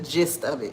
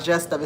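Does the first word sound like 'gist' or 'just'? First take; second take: gist; just. First: The first word does not sound like 'just'. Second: The first word sounds like 'just'. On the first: The speaker calls it right. "it's the gist of it" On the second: The speaker calls it wrong. "It's not just of it"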